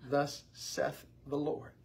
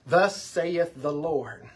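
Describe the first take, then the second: First: The word saith is said with one syllable. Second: The word saith is said with two syllables. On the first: The speaker calls it right. "it's Seth. ... it's one syllable" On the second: The speaker calls it wrong. "the way most people in the South pronounce it, ... So, two syllables"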